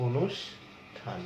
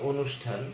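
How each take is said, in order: First: অনুষ্ঠান drawn out slowly, broken as "onush... than"; syllable-split pronunciation. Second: Said in the usual way. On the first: Shown as a demonstration. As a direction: break অনুষ্ঠান after a clear "sh", then "than". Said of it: "এরকম লিখছি উচ্চারণটা". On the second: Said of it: "আমরা যদি একটা শব্দ বলি".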